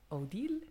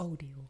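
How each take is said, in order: First: The stress is on the second syllable. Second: The stress is on the first syllable. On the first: This is the usual French way of saying the name. "daarbij is eigenlijk de nadruk op de deal" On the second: This is the family's own unique way of saying the name. "hebben zij de nadruk op de O gelegd"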